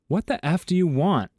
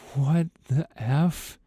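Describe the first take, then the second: First: It is said in an angry, commanding tone. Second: It is said as a frightened whimper.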